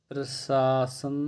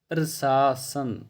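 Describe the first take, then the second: The two takes are said the same way.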